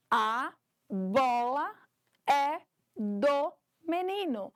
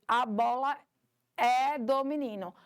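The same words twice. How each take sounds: First: "A bola... é do menino" said slow, word by word with pauses; slowly split into words. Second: Said in the usual way. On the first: Shown as a demonstration. Teacher to the class, showing each word separately, slow and spaced. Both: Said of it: "eu tenho palavras ali".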